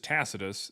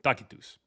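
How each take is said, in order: First: The name has an English pronunciation. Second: The name has a Classical Latin pronunciation. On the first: This is the modern English form of the name. "the way we say it in English is" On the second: This is how the name was said in ancient times. "that's literally how they said it in Latin"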